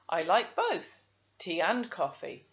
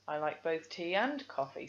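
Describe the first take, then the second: First: There is a pause after both. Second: There is no pause after both. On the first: The speaker calls it wrong. "I can hear the comma" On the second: The speaker calls it right. "there's no pause after the both"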